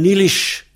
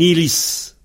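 First: The word ends with an 'sh' sound. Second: The word ends with an 's' sound. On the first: "le Z final prend CHE" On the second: "Mais un ilis"

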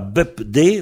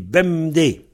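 First: The first syllable ends with a P sound. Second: The first syllable ends with an M sound. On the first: The speaker calls it wrong. "On ne dit pas BEP-D" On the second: The speaker calls it right. "on dit BEM-D"

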